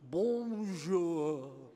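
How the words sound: The greeting sounds lofty and self-important. The speaker wants others to feel their new power. The speaker calls it wrong. "Even the tone of their voice changes. ... They have to make their importance felt"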